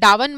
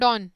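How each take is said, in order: First: The vowel glides, sounding like 'down'. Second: The vowel is a single 'aw', like 'don'. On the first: The speaker calls it wrong. "डावन मत पढ़ना" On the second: The speaker calls it right. "But बेटा इसको ऐसे बोलते हैं ना"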